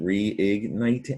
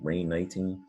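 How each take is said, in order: First: It begins with 're' followed by 'igniting'. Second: It begins with 'rain' followed by 'knighting'. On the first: The speaker calls it right. "A lot of words start with re. ... it's reigniting" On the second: The speaker calls it wrong. "Looks like it starts with reign, ... It doesn't sound right"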